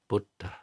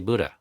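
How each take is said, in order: First: It is said with a puff after d. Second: It is said without a puff after d. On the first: This is the Pali way. "if you want to say it the Pali way, it's Buddha" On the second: This is the usual American way. "I say Buddha, which is how an American would say it"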